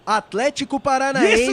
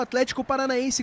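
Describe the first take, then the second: First: It is said slowly, with strong emphasis. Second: It is said quickly, without special emphasis. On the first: The speaker calls it right. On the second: The speaker calls it wrong.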